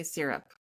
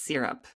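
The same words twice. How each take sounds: First: Syrup said with a plain "sear-up" vowel; Vermont way of saying syrup. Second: Syrup said with "sir-up"; own way of saying syrup. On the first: Friend repeats how the Vermonter says syrup. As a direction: say "syrup" the way she does. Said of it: "I like how you say syrup". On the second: Friend contrasts her own way of saying syrup. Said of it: "I say it's syrup". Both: Shown as a demonstration.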